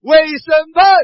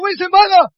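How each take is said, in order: First: It is said at a normal pitch. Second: It is said at a raised, higher pitch.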